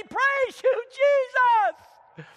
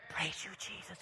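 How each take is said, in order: First: High, loud shout of "Praise you, Jesus". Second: Soft, limp "Praise you, Jesus"; meek quiet praise; timid praise. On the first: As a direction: shout it to heaven. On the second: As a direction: mumble it half-heartedly. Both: Shown as a demonstration. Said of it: "It's gonna be".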